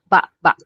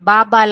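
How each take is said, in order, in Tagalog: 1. Ang salita ay nagtatapos sa biglaang glottal stop. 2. Maayos na nagtatapos ang salita, walang paghinto. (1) "sudden stop siya 'no, meron siyang parang ganyan, maragsa yung pronunciation niya" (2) "Kasi kung ba-ba lang 'yan, ibig sabihin yung yung dito 'no, chin"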